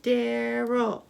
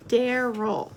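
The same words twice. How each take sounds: First: Daryl in two measured beats; syllable by syllable. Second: Said in the usual way. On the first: Shown as a demonstration. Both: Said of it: "Count the syllables".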